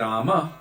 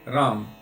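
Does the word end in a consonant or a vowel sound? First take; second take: vowel; consonant. First: The word ends with a full final vowel. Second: The word ends on a consonant, vowel dropped. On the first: This is the Sanskrit form. "we might say Rama in Sanskrit" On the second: This is the Hindi form. "in Hindi they would say Ram"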